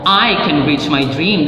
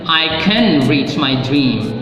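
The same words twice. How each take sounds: First: The stress falls on the word I. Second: The stress falls on the word can. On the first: Only this person, nobody else, can do it. "That means it's only you, not anybody else" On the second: Reaching the dream is believed to be possible. "That means you believe it's possible to reach your dream"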